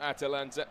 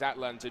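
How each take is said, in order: First: The name is said with four syllables. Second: The name is said with three syllables. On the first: The speaker calls it wrong. "not Atalanta. Poor pronunciation from myself there" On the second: The speaker calls it right. "I should say it's Atlanta"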